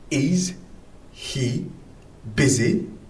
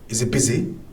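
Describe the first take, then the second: First: The h sound at the start of he is pronounced. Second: The h sound is dropped, said quickly.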